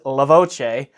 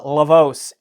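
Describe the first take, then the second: First: The name is said with an Italian pronunciation. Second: The name is said with an American pronunciation. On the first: The speaker calls it right. "Because this is Italian, the correct pronunciation of this unit is LaVoce" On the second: The speaker calls it wrong. "I called it the LaVoce in there because, um, you know, I'm based in the United States"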